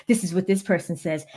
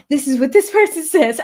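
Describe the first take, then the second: First: Said in the usual way. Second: Louder, higher, hammed-up character read; theatrical, loud reading voice; getting into character. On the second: Shown as a demonstration. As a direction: perform it big, in character, with a laugh. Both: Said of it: "Y'all see me get into character".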